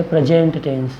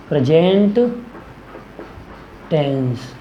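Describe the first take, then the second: First: Said in the usual way. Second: Word-by-word dictation. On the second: Shown as a demonstration. Teacher naming the first type of tense, word-by-word dictation. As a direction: split present and tense with a long pause. Repeats term slowly for dictation.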